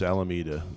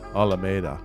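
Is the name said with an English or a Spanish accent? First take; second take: English; Spanish. First: It is said with an English accent. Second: It is said with a Spanish accent. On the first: "the gringo, the English pronunciation is Alameda" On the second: "from purely a Spanish accent, it's going to be"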